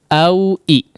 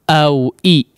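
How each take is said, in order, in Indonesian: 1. Vokal kedua dimulai dengan hentian tenggorokan yang tajam. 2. Vokal kedua dimulai dengan hentian tenggorokan yang tajam.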